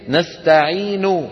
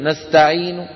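First: A full vowel is pronounced after the final n. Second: The word ends lightly on the n, no vowel. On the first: This is the original, fully inflected form. "فالأصل هي الحركة الكاملة، يعني الأصل أن يقول المتكلم نستعين" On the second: The speaker saves effort without losing meaning. "مع مرور الأيام شو بيقول؟ ... شو بيصير بصوته؟ يخف"

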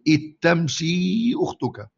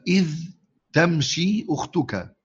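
First: The dh merges into a doubled t sound. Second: The dh sound is heard before the t.

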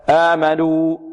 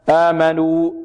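No difference in how they are said.

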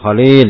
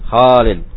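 First: The first vowel is said short. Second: The first vowel is said long. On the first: The speaker calls it wrong. "Bukan Khalid gitu ya" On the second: The speaker calls it right. "Khalid itu kho-nya yang panjang ya"

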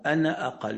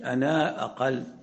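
First: The final vowel of ana is short. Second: The final vowel of ana is lengthened. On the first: The speaker calls it right. "فيقول إن ترني أنا أقل، أنا أقل" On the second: The speaker calls it wrong. "مش أنا أقل"

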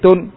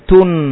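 First: The final n is cut off abruptly. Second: The final n is held with a nasal hum. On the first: The speaker calls it wrong. "tidak dimatikan seperti tun" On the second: The speaker calls it right. "ngalirkan tun"

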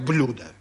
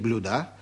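First: The stress falls on the standard syllable. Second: The stress falls on a nonstandard syllable. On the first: The speaker calls it right. "Грамотные люди, конечно, говорят блюда" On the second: The speaker calls it wrong. "я нарочно переставил ударение"

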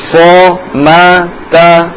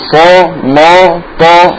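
First: The vowels are light and thin. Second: All the vowels are heavy and thick. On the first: The speaker calls it right. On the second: The speaker calls it wrong.

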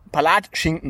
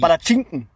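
First: The stress is not on the schin syllable. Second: The stress is on the schin syllable. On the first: The speaker calls it wrong. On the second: The speaker calls it right. "Palatschinken auf dem I"

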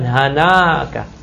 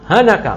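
First: The vowel after the n is long. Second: The vowel after the n is short. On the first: The speaker calls it wrong. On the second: The speaker calls it right.

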